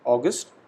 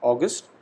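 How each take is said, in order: First: It is said with English pronunciation. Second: It is said with English pronunciation.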